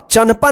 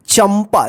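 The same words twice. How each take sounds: First: The nasal before 'pa' is an n sound. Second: The nasal before 'pa' is an m sound. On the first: The speaker calls it wrong. "नहीं पढ़ते हैं इसको" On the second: The speaker calls it right. "इसी बिंदी के लिए जो है ना यहां पे एम लगता है"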